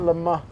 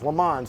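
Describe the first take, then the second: First: The name is said the French way. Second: The name is said the American way. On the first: "like he said" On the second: "that's the American version"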